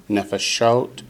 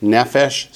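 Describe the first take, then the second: First: Nefeshot with weight on SHOT; nefeshot, plural, stressed last; last-syllable stress. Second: Nefesh with weight on NE; nefesh, singular, stressed first; first-syllable stress. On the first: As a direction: land on the end of nefeshot. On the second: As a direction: hit the start of nefesh. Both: Shown as a demonstration. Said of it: "the accent switches to the last syllable".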